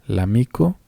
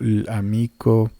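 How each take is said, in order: First: The L runs straight into the word. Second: The L is set apart from the word. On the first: The speaker calls it right. "vamos a leerlo como si fuera una sola palabra" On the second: The speaker calls it wrong. "otras combinaciones fonéticas que en realidad no están presentes aquí"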